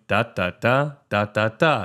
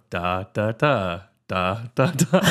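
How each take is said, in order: First: "da, da, da" in short, even beats; even four-four rhythm. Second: "da, da, da" with the first "da" held long; lilting three-four rhythm. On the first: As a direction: chant "da" evenly and briskly. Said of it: "instead of going". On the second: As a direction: swing the "da" syllables, leaning on the first. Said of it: "you just go". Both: Shown as a demonstration.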